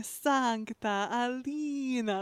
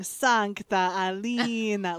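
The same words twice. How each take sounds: First: Very slow mock Russian accent; bad Russian accent. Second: Put-on slow, drawn-out Russian accent; mock Russian accent, dragged out; bad Russian accent. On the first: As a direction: stretch it out in a fake Russian accent. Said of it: "you just hear this woman going". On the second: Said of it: "a voice actor in a horrible Russian accent".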